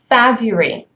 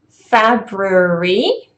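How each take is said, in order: First: The word is said in its casual, everyday form. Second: The word is said in its full, careful form. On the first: "what you would hear very often" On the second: "supposed to be the um, the correct kind of pronunciation"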